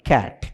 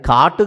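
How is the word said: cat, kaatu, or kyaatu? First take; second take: cat; kaatu. First: It has an English 'a' vowel and no final vowel. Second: It has a plain 'aa' vowel and a final 'u'. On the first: The speaker calls it right. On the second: The speaker calls it wrong. "అది కాటు కాదు"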